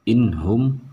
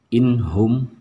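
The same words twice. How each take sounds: No difference in how they are said.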